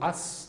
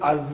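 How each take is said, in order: First: The word ends with a hissing s sound. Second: The word ends with a buzzing z sound. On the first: The speaker calls it right. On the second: The speaker calls it wrong. "దీన్ని అజ్ అనకూడదు"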